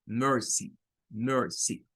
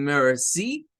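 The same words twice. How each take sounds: First: «mercy» con I final corta, tono descendente; sonido más corto. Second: «mercy» con la I final larga y subiendo, como en francés; como «merci» francés. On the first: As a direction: di «mercy» sin alargar la última vocal. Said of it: "Este es un sonido más corto". («mercy» breve al final, cayendo el tono) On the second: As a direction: alarga y sube el final de «mercy». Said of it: "en francés". («mercy» mal dicho, como gracias en francés) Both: Shown as a demonstration.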